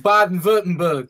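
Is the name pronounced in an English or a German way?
German. The name is said with German-style sounds. The speaker calls it right. "But it's Baden-Württemberg. It's cool to say"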